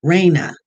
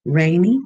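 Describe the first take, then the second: First: "Raina" said with an uh ending, falling tone; settled pronunciation. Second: "Rainy" said with an ee ending, rising as a question; tentative pronunciation. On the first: Host working out a viewer's name, settled pronunciation. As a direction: land on "Raina" with a final uh, decided. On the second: Host puzzling over a viewer's name, tentative pronunciation. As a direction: try "Rainy" with a final ee, questioning. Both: Shown as a demonstration. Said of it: "That's probably how you pronounce it".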